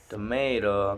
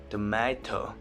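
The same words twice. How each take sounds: First: It is said in an American accent. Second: It is said in a British accent. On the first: "American people say" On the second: "British people say"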